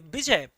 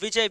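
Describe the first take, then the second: First: The name begins with a B sound. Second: The name begins with a V sound. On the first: "the Bengali we become ba" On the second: "instead of"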